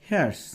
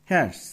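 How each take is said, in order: No difference in how they are said.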